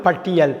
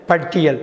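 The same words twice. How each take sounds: The two takes are said the same way.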